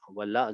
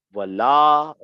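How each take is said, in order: First: Wala with a brief la, softer; correct short la. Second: Wala with la stretched out, loud; wrong long la. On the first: Teacher repeats the verse correctly for students, Wala with short la. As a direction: keep the la of Wala short and light. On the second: Teacher demonstrates the mistake for students, Wala with overlong la. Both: Shown as a demonstration. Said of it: "this is wrong".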